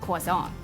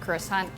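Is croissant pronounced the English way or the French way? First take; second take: French; English. First: Croissant is said the French way. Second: Croissant is said the usual English way. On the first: The speaker calls it right. "Pero ang correct French pronunciation is" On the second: The speaker calls it wrong. "kasi ang typical pronunciation dati"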